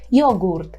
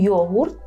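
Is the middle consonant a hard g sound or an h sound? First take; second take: g; h. First: The middle consonant is a hard g sound. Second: The middle consonant is a breathy h sound. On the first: This is the Polish pronunciation. "ми повинні вимовляти Г" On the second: This is the Ukrainian pronunciation. "що українською йогурт"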